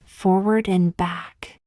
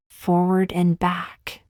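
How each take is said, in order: Both takes have the same delivery.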